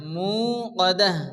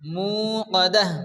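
The two takes are said the same way.

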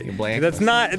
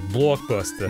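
First: It is said in a Chicago accent. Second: It is said in a New York accent. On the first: "That's how you say it if you're from Chicago" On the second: "In New York, it would be"

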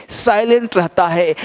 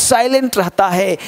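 No difference in how they are said.

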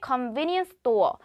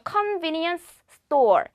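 First: The two s sounds merge into one. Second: Both the final s and the next s are pronounced. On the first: The speaker calls it right. "어떻게 convenience store" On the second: The speaker calls it wrong. "convenience store이 아닌"

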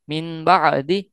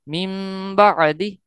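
First: The first word ends in n, syllables separated. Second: The first word ends in m, said smoothly. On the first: "जब हिज्जे करेंगे तो नून पढ़ेंगे" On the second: "जब हम इसको रवानगी में पढ़ेंगे तो मीम हो जाएगा"

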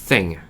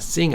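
First: The first sound is a th sound. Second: The first sound is an s sound. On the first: The speaker calls it right. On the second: The speaker calls it wrong.

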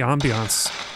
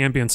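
First: The word is pronounced in an unusual way. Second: The word is pronounced in an ordinary way.

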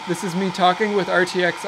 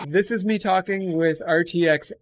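First: A loud hairdryer roars behind a natural voice. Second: No background noise; the voice sounds thin and robotic. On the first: "with RTX off" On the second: "with RTX on"

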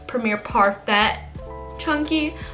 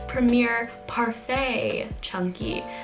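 First: Parfait is not said like the dessert word. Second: Parfait is said like the dessert word. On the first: The speaker calls it wrong. "I would have kept saying like" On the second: The speaker calls it right. "apparently you pronounce it ... So like the dessert parfait"

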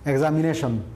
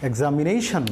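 First: It is said flatly, without stress or intonation. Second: It is said with strong stress and intonation. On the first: The speaker calls it wrong. "amra eibhabe bolbo na" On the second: The speaker calls it right. "Press intonation দিয়ে চাপ দিয়ে দিয়ে যেখানে প্রয়োজন সেখানে পড়ব"

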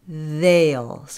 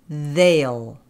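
Both takes have the same delivery.

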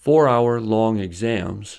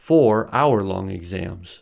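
First: The words run on without a pause after 'four'. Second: There is a clear pause after the word 'four'. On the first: The exams took four hours. "which means that the exams took 4 hours" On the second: There were four exams of one hour each. "which means that the four exams took 1 hour each"

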